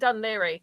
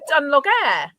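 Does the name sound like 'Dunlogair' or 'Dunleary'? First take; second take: Dunleary; Dunlogair. First: The name ends in a 'leary' sound. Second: The name is read with a hard 'g' sound. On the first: The speaker calls it right. "do you mean Dunleary" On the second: The speaker calls it wrong. "you stupid mare?"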